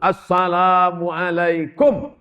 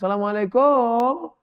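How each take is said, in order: First: The vowels are kept short. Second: A vowel is drawn out long. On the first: The speaker calls it right. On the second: The speaker calls it wrong. "Ini sekarang banyak yang panjang"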